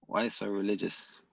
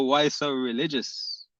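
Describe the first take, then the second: First: Much softer, lower, under the breath; muttered repeat. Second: Slow, drawn-out teasing question; mocking tease. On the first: Muttering the taunt again to himself, quiet and lower. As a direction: repeat the tease to yourself, barely aloud. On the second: Teasing a chat debater after a laugh, slow and mocking. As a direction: tease him slowly, amused. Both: Real, not acted.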